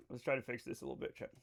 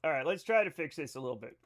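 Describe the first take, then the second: First: Quick, much softer, half under the breath; softly muttered repeat while tinkering with settings; muttered to self. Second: Said in the usual way. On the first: Shown as a demonstration. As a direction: mutter it fast while busy fixing something.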